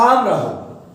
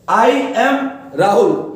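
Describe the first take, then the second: First: I and am merge into one syllable. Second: I and am are said as two words. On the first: "उसी का हो जाएगा आम राहुल"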